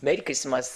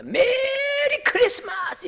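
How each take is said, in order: First: Said in the usual way. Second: High, drawn-out festive cry; loud proclamation. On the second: Acted. Preacher proclaiming Christmas to the congregation, high drawn-out shout. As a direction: proclaim it high, stretching out the vowels. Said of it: "크게 외치거든요".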